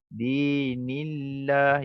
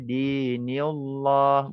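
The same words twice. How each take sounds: First: The L sound is light and thin. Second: The L sound is heavy and thick. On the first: The speaker calls it right. "Ini dinillah kita baca nipis lah lam tu" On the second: The speaker calls it wrong. "Bukannya kita baca dinillah"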